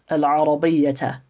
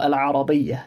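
First: The word ends with an extra short 'a' vowel. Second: The word ends without the extra short vowel. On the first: The full grammatical ending is shown. The speaker calls it wrong. "I'm saying it with the fatha on the end" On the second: The grammatical ending is dropped at the pause. The speaker calls it right. "You'd just say Al-Arabiyya"

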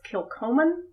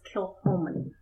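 First: The middle consonant is a hard k sound. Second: The middle consonant is a soft h sound. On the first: The speaker calls it wrong. "It's spelled like you would think it's Kilcoman" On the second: The speaker calls it right. "but it's Kilhoman"

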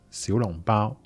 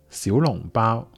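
First: It is pronounced in Cantonese. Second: The same.

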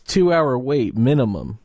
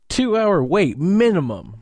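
First: It is read in a plain, flat way. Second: It is read with sass and oomph.

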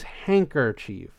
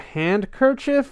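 First: The D sound is left out of the word. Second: The D sound is pronounced in the word. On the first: "It's always handkerchief to me" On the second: "It's apparently spelled handkerchief"

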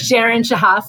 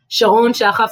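First: The name is said the American way. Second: The name is said the speaker's own way.

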